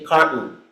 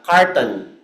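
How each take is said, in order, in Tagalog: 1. Nilalamon ang gitnang pantig at pinaikli. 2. Parehong pantig ay binibigkas nang buo at malinaw.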